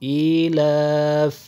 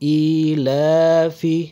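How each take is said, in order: First: The word stops on the final consonant. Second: The word ends with a short final vowel. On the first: The reader stops at the word. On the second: The word is read in continuous reading.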